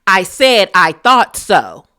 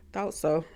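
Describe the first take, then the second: First: "I said I thought so" repeated much louder, punching "thought". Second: "Thought so" said under the breath, much softer; muttered aside. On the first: Angela repeating her dig to Britt, loud and defiant. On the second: Angela muttering at Britt, a soft snide aside. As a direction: slip the words in quietly, as a dig. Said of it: "What was that, Angela?". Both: Acted.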